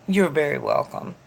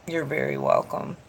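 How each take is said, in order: Both takes have the same delivery.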